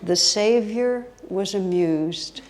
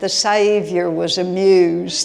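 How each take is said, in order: First: It is said in the speaker's ordinary accent. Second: It is said in a Southern American accent.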